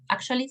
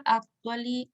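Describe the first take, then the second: First: "actually" with a CH sound in the middle; English pronunciation. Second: "actually" sounded out slowly, letter by letter as in Spanish; learner's misreading. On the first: Shown as a demonstration. Teacher correcting the false guess, "actually" pronounced the English way. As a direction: say "actually" as a fluent English word. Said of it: "Pero no, actually significa en realidad". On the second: Retold or imitated. Teacher imitating a guessing learner, "actually" slowly misread. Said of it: "que usted podría decir".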